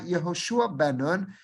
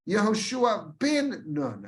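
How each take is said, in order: First: The middle word has an 'e' vowel. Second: The middle word has an 'i' vowel. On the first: The speaker calls it wrong. "It's not Yehoshua Ben Nun" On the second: The speaker calls it right. "It is always Hosea bin Nun. Yehoshua bin Nun. Again, with a chirik"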